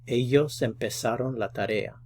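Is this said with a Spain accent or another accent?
another. It is said without the Spain pronunciation.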